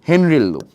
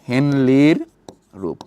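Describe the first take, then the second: First: The name is said with an R sound. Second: The name is said with an L sound. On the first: This is how it is said in medicine. The speaker calls it right. "মেডিকেলে গেলে কিন্তু হেনলি বললে হবে না, এটার উচ্চারণটা কিন্তু কি বলতো?" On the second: This is how the school book says it. The speaker calls it wrong. "আর তোমাদের বইতে বলা আছে কি বলতো?"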